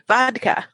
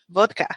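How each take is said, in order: First: It is said with a standard English pronunciation. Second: It is said with a Russian-style pronunciation. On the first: The listener will not understand it as the drink. The speaker calls it wrong. "do you know what happens if you say vodka? ... they'll give you like water or cotton balls" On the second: It is the form used by native speakers. The speaker calls it right. "in Russia it's pronounced vodka"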